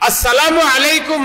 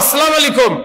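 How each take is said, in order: First: The greeting is said with its full standard sounds. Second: The greeting is said with other sounds altered. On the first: Peace and mercy be upon you. The speaker calls it right. "আসসালামু আলাইকুম না বলে" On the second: May destruction fall upon you. The speaker calls it wrong. "যার অর্থ তোমার তোমার ধ্বংস হোক"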